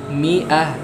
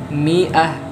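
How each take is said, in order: No difference in how they are said.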